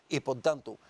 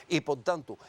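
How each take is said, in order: Both takes have the same delivery.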